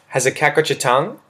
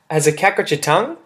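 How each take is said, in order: First: The voice falls at the end. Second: The voice rises at the end. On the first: "Or you can have it neutral or going down" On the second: "So you can raise the intonation"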